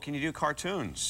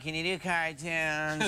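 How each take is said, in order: First: It is said in his own natural voice. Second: It is said in a put-on imitating voice.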